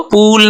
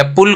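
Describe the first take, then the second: First: पूल with a long, stretched 'oo'; wrong long vowel. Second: पुल with a brief, quick u; short vowel. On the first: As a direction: drag the oo in पूल as the mistake. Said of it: "पूल नहीं बोलेंगे". (पूल में लंबा खिंचा ऊ) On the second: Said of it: "पुल को पूल नहीं बोलेंगे". (पुल में छोटा उ) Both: Shown as a demonstration.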